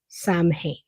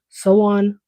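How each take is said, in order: First: It is said the way it is spelled. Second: It is said like sow-in, without the m. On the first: The speaker calls it wrong. "don't say Samhain. I know that's what it looks like" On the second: The speaker calls it right. "So on or Soween, one of those variants"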